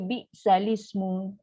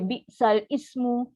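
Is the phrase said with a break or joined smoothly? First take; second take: joined; break. First: The sounds are joined together without a break. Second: There is a break before the final part. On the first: The speaker calls it right. "Dibaca dengan secara wasal. Baca dengan cara disambung kan" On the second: The speaker calls it wrong. "Kita tak baca bi sal ismu. siapa baca bi sal ismu salah"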